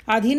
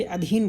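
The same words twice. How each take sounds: First: अधीन with a long first vowel, 'aa-dheen'; wrong pronunciation. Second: अधीन with a short first vowel, 'a-dheen'; lower, start अधीन on a brief 'a'; correct pronunciation. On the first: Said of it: "अधीन नहीं बोलते". (अधीन का गलत उच्चारण, 'आधीन') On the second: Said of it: "अधीन बोलते हैं". (अधीन का शुद्ध उच्चारण, छोटे 'अ' से) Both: Shown as a demonstration.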